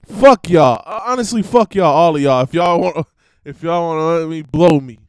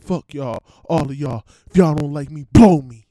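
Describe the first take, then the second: First: Shouted, loud line, punched on "fuck" and "blow"; loud first take of the lyric. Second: Reciting the rap lyric. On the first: Shown as a demonstration. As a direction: blurt the line out loud before checking it. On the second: Retold or imitated. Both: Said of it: "Wait, how did [name] say it?".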